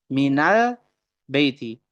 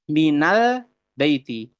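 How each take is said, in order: The two takes are said the same way.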